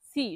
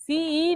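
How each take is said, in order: First: সি short, one syllable; careful model সি, cut short; correct pronunciation. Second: সিই with a stretched double i; wrong-way demo of সিই, vowel dragged; common mispronunciation. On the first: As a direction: say সি with no drawn-out vowel. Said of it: "শুধু সি". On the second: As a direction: say সিই as "si-iii". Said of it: "সিই না". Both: Shown as a demonstration.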